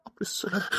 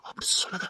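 First: Said in the usual way. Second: Whispered plea; husband's hushed plea; pleading whisper. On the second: Acted. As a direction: hush her gently, begging.

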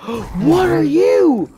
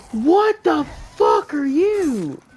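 First: High, loud and slow, drawn out in shock; horrified drawn-out cry; stunned shout. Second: High and loud, quicker and harsher; horrified yell at a monster; shocked shout. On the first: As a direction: gape at the monster and stretch the words. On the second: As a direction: blurt it out in disbelief. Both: Real, not acted. New monster appears.

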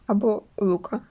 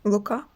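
First: Лука with stress on the first syllable, ЛУ-ка; trying stress. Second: Лука with stress on the last syllable, лу-КА, rising; trying stress. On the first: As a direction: try Лука stressed on ЛУ, falling. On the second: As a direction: try Лука stressed on КА, like a question. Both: Shown as a demonstration. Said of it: "Не знаю, як правильно наголос".

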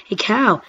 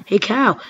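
Both takes have the same delivery.

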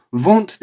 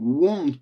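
First: Won't said as "vont", with a v; wrong v in won't. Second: Won't with a rounded w, like "uont"; correct w in won't. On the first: Teacher shows students what to avoid, won't mispronounced as "vont". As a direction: say won't with a Turkish v. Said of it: "won't değil arkadaşlar". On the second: Teacher shows students what to copy, won't with a rounded w. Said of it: "gibi yapın tamam mı". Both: Shown as a demonstration.

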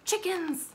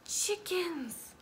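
First: Higher, bright announcing of the word; excited discovery. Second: Unvoiced hushed Chickens; whisper. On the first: Acted. Showing a child the picture, excited naming. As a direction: call out the find with delight. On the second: Sharing a secret with a child, whispered.

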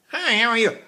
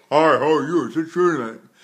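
First: Pinched and higher; pinched speaking. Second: Darker and louder; a covered, dark greeting; covered speaking. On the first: Teacher showing a pinched greeting. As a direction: squeeze the greeting. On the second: Teacher showing a dark greeting. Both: Shown as a demonstration. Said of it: "talked to you".

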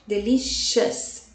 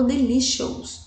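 First: Delicious slowly, last syllable a weak schwa; correct delicious. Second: Delicious with the last vowel said as a full open o, the wrong way. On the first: Teacher modelling the right Delicious for students. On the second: Teacher showing students the wrong way to say delicious. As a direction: say delicious ending in an o sound, as the mistake. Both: Shown as a demonstration. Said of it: "eu não falo delicious".

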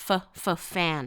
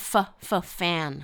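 No difference in how they are said.

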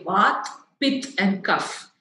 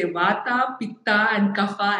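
First: "Vat, Pit, and Kaph" with the final vowels dropped; Hindi pronunciation. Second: "Vata, Pitta, and Kapha" each ending in an open A; South Indian pronunciation. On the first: Teacher showing how Hindi speakers say "Vat, Pit, and Kaph", without final A. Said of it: "more familiar with Hindi say". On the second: Teacher showing South Indian "Vata, Pitta, and Kapha", with added final A. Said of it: "we like adding an R". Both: Shown as a demonstration.

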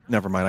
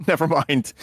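First: Said in the usual way. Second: Laughing. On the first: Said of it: "I drink soda". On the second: Real, not acted. Laughing at own contradiction.

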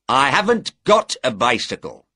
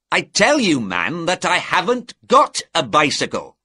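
First: Said in the usual way. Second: Higher, louder, exasperated denial; irritated insistence. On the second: A narrator's reading. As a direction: insist as if not believed. Innkeeper insists on his repeated denial.

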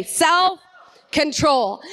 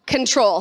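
First: "Self-control" stretched very slow and called out; drawn-out call. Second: Said in the usual way. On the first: Shown as a demonstration. Pastor leads the church in a long called-out "Self-control". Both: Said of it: "Say it with me".

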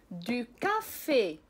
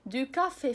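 First: Slow demo. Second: Said in the usual way. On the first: Shown as a demonstration. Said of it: "لقراءة بعض الكلمات". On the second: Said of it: "كافي هي القهوة".

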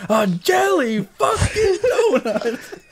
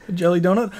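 First: Very high, drawn-out drill-sergeant yell; Gunny. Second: High-pitched incredulous question; Gunny. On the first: Drill sergeant exploding at a recruit over a donut, outraged yell. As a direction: explode slowly, stretching every word in mock outrage. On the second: Drill sergeant questioning a recruit's donut, incredulous. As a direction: imitate a drill sergeant asking in disbelief. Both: Acted. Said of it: "What about Gunny from, uh, Full Metal Jacket?".

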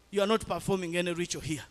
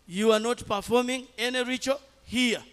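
First: Fast, level, matter-of-fact refusal; quick firm statement. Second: Higher and louder, hammering the refusal home; emphatic repeat. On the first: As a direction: lay it down quickly before the repeat. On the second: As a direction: say it again, now forcefully. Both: Retold or imitated. Repeated rebuke to relatives.

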